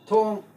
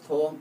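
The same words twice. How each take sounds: First: The pitch falls on the word. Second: The pitch rises on the word. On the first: It means door. "this is falling tone ... Thong in English door" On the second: It means bridge. "this is rising tone and equal to ng. Example is thong in English breeze"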